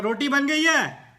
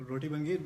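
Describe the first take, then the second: First: Loud, higher, slow shout; shouting to be heard. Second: Said in the usual way. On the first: Retold or imitated. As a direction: yell it to a hard-of-hearing elder. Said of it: "تو آپ کو ذرا اونچی آواز میں پھر کہا". (اونچی آواز میں چلا کر) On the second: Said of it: "کہنے کے بجائے کرنی چاہیے".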